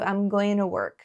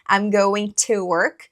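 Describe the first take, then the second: First: The word 'to' is reduced, its t like an r. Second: The word 'to' is said fully with a clear t. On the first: "no dia a dia, principalmente no inglês americano, é dito ... que é diferente" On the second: "Você pode falar"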